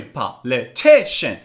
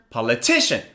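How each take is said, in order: First: "Politician" slowly split, TI stressed; low, slow "Politician" with pauses, TI strongest; slow, syllable by syllable. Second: "Politician" in one go, TI stressed; quick "Politician" peaking on the third syllable; faster, joined up. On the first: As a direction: model "Politician" in four separate beats for repeating. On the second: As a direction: say "Politician" as a whole word, leaning on TI. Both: Shown as a demonstration.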